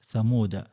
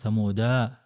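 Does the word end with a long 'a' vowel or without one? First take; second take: without one; long a. First: The word ends without a final long vowel. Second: The word ends with a final long 'a' vowel. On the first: The speaker calls it right. "دائرة مكتملة وهي لا تنطق لا وصلا ولا وقفا" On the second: The speaker calls it wrong. "فلا تقول ثمودا"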